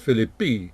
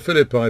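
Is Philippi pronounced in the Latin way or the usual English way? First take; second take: Latin; usual English. First: The name is said with a Latin pronunciation. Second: The name is said with the usual English pronunciation. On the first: "when I was taught Latin, I would have pronounced this Philippi" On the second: "I'll stick to the more usual pronunciation"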